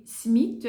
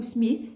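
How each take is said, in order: First: "Smith" said as "smit", ending in a plain T; Smith with hard T. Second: "Smith" ending in an English TH; Smith with soft TH. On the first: Unsure of the author's surname, "Smith" said as "smit". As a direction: end "Smith" on a hard French T. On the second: Offering the other surname pronunciation, "Smith" with English TH. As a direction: end "Smith" on a soft TH fricative, not T. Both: Shown as a demonstration. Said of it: "je ne sais pas si on dit".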